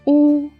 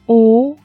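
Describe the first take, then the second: First: The pitch stays high and level. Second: The pitch rises from middle to high.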